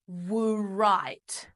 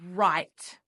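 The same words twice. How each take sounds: First: The word begins with a W sound. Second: The word begins with an R sound. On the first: The speaker calls it wrong. "We don't say write" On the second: The speaker calls it right. "No, the word is write. So that W is what we call a silent letter"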